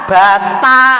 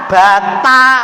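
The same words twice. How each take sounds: First: The t is said heavily with a Javanese accent. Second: The t is said heavily with a Javanese accent.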